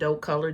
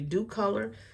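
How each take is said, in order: First: The first syllable sounds like 'doe'. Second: The first syllable sounds like 'dew'. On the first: The speaker calls it wrong. "at first I was pronouncing it Doe Color" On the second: The speaker calls it right. "but it's actually Dew Color"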